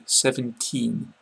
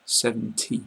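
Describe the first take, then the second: First: SEVENTEEN with a long drawn-out EE and a final N; long final vowel. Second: SEVENTY with a short, light final EE and no N; short final vowel. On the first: Teacher contrasting numbers for learners, long EE in SEVENTEEN. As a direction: stretch the end of SEVENTEEN slowly, finishing on N. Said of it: "make the E's a lot longer". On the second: Teacher contrasting numbers for learners, short ending on SEVENTY. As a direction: keep the end of SEVENTY brief. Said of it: "the sound at the end is a lot shorter". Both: Shown as a demonstration.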